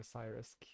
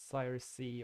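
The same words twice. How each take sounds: First: "Cyrusk" run together, ending in a hard "sk"; pronounced Cyrusk. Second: "Cyrus C" ending in a spoken letter C, "see"; pronounced Cyrus-see. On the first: Player offering the other reading, "Cyrusk" ending in "sk". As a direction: say "Cyrusk" as one word with a final k sound. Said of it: "pronounce it that way". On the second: Player unsure of a username, "Cyrus C" ending in "see". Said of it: "pivoted more to Cyrusk". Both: Shown as a demonstration.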